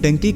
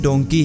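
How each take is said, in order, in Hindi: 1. पहला स्वर 'uh' की ध्वनि है। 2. पहला स्वर 'o' की ध्वनि है। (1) "लेकिन इसे डंकी कहा जाता है" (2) "ये लफ्ज़ डोंकी है"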